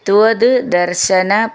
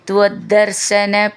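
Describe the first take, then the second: First: The two words are said separately. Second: The two words are joined together.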